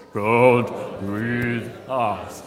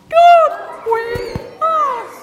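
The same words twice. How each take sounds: First: Very low, slow playful chant; deep, drawn-out booming words. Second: Loud, squeaky-high slow chant; very high, stretched-out playful call; really high voice. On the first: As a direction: lead the chant right down at the bottom of your range. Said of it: "Now deep voice". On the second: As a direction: lead the chant way up in falsetto. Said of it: "do it in a really high voice". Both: Pretend.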